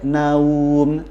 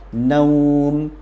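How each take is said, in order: First: The vowel glide is said forcefully and heavily. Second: The vowel glide is said softly and easily. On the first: The speaker calls it wrong. "tidak boleh naum" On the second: The speaker calls it right. "lin di sini adalah dia mudah saja"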